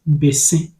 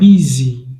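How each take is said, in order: First: It is said as 'beh-seh' with open vowels. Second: It sounds like the English word 'busy'. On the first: This is the original form meaning kola nut. The speaker calls it right. "In the Akan language, it is pronounced bese and not busy" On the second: This is the local form after years of change. The speaker calls it wrong. "just as she says it"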